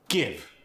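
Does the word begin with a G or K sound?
G. The word begins with a G sound.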